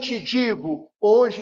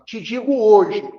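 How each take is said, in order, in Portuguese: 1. A pausa vem antes da palavra hoje. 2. A pausa vem depois da palavra hoje. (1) "quando a gente lê, em verdade te digo, hoje estarás comigo" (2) "Te digo hoje, dois pontos"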